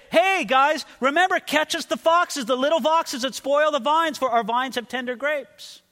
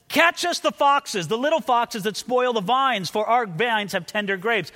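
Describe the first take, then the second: First: High, raised casual call; calling out in passing. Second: Raised, higher reading, easing off by the end; cried out. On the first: Brothers walking by the couple in nature, calling out. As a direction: holler a reminder to the couple. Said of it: "this is where they say". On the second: Verse called by the maiden's brothers, cried out. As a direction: read it out like a cry from the side. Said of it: "as if they hear this cried out from the side". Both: Acted.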